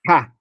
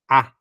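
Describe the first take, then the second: First: The vowel begins with a breathy h sound. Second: The vowel begins plainly with no h sound. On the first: The vowel carries a rough breathing mark. "eu tenho que falar ha, ha, entende? Falar com a garganta" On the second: The vowel carries a smooth breathing mark. "o alfa está com o espírito doce, eu vou falar A"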